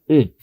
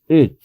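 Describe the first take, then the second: No difference in how they are said.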